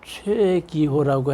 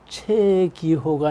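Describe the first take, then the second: First: The name has a standard, precise pronunciation. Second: The name has a regional Chungcheong-style pronunciation. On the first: The speaker calls it right. "최기호라고 해야 되는데" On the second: The speaker calls it wrong. "충청도 발음이 들어간 겁니다"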